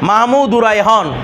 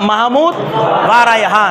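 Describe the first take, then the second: First: The word 'and' is joined to the preceding name. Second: The word 'va' is said as a separate syllable. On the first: The speaker calls it right. "মাহমুদু এটার সাথে মিলে যাবে" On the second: The speaker calls it wrong. "Logically কি হওয়ার দরকার ছিল"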